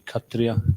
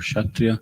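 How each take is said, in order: First: The word starts with a plain K sound. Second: The word starts with a KSH sound.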